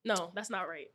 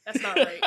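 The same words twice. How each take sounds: First: Said in the usual way. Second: That's not right said louder and firmer, punching right; self-correcting loudly, about to laugh; emphatic correction. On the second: Real, not acted. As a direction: blurt out That's not right with a loud burst.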